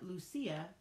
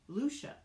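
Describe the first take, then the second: First: The name is said with its accented vowel. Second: The name is said without its accented vowel. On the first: This is how the name is meant to be said. The speaker calls it right. "rather than Lucia, the way it's spelled" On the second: This is how the name is recorded without the accent mark. The speaker calls it wrong. "without the pesky accent, which is pronounced Lucia"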